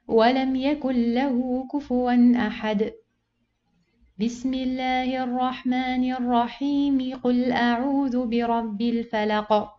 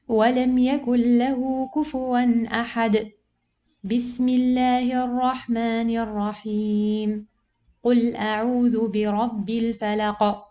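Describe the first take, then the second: First: The last two parts run together without pause. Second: There is a pause after every part. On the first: "you pause and you join the basmala with the second surah" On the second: "I pause after each part"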